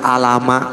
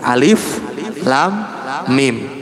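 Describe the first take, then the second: First: The letters are run together as one short word. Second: Each letter is said by its full name. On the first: The speaker calls it wrong. "nggak dibaca alama" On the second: The speaker calls it right. "tapi alif lam mim"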